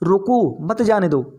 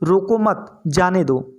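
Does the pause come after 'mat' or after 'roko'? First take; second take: after roko; after mat. First: There is a pause after the word roko. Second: There is a pause after the word mat. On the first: Stop him; do not let him go. "इधर रोको के पीछे" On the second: Do not stop him; let him go. "यहाँ हमने मत के पीछे विराम चिन्ह लगाया है"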